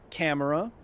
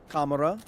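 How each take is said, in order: First: Said in the usual way. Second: "Kamera" said the Russian way, with an "ah" first vowel; Russian pronunciation. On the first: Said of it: "tokamak is actually an acronym". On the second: Shown as a demonstration. Streamer spelling out the acronym, "Kamera" with a Russian "ah". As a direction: say "Kamera" as Russian KAH-mera.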